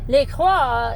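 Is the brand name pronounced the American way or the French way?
French. The name is pronounced with French sounds. "in French"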